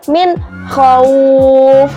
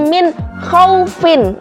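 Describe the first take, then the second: First: The last word stops on a silent f. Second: The last word ends with the syllable -in. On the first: It is read this way when stopping at the pause. "bacanya adalah" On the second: It is the written form. "sebenarnya tulisannya"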